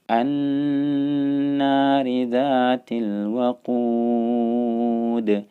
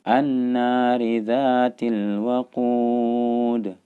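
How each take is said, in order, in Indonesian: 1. Nun bertasydid dibaca dengan dengung sengau yang panjang. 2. Nun bertasydid dilafalkan dengan cepat tanpa dengung sengau. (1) "jangan sampai tidak ditahan bacaan" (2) "bukan langsung an-nari dzatil waqud. Salah"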